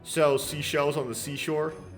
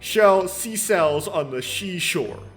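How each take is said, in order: First: The first word begins with a plain s sound. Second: The first word begins with an sh sound. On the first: The speaker calls it right. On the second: The speaker calls it wrong.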